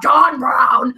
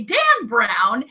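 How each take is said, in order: First: Loud, drawn-out dramatic proclamation; John Brown. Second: Touch of cranky emphasis on the name. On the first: Contrasting two names for co-host, loud documentary-style proclamation. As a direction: belt out the name like a documentary chorus. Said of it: "I'll do it in the John Brown voice". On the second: Showing co-host the hated author's name, mildly cranky. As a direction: say the name as someone you dislike. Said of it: "it'll be just in my cranky voice". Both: Shown as a demonstration.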